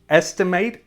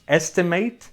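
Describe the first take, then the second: First: It is pronounced as the verb form. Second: The same.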